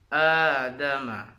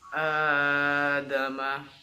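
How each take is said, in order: First: The opening vowel is held for two beats. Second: The opening vowel is held far too long. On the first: The speaker calls it right. "Yang betul itu adalah adama yang dipanjangkan menjadi dua harokat" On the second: The speaker calls it wrong. "itu kan kepanjangan melebihi dua harokat"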